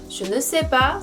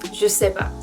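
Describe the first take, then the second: First: Every word is said, including the 'ne'. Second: The 'ne' is dropped; other words said clearly. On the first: The speaker calls it wrong. "je ne sais pas 라고 하는 게 아니라" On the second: The speaker calls it right. "ne 발음을 잘 안 해요"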